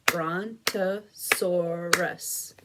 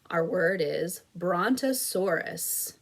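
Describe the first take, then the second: First: Brontosaurus drawn out slowly as Bron-to-sau-rus; four slow even beats on Brontosaurus; clapped syllables. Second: Said in the usual way. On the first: Shown as a demonstration. Teacher claps out Brontosaurus with the class, slow and beat by beat. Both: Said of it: "Let's clap it out".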